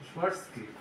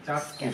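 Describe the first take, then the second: First: The name begins with a soft sh sound. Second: The name begins with a hard ch sound. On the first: The speaker calls it right. "আসলে উচ্চারণটা হলো শোয়ার্সনেগার" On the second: The speaker calls it wrong. "সাবরা যেটা বলে চার্টস্কি"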